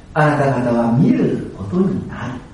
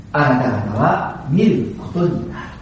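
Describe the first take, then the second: The two takes are said the same way.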